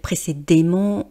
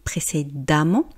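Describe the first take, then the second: First: The vowel before -mment sounds like 'e'. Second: The vowel before -mment sounds like 'a'. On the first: The speaker calls it wrong. "j'ai pas dit précédemment" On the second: The speaker calls it right. "j'ai dit précédemment ... on ne voit pas de lettre A"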